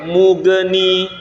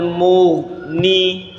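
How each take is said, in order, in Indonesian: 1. Huruf gh dilepas dengan pantulan. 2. Huruf gh ditahan tanpa dipantulkan. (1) "jangan sampai mughni" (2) "sama ya"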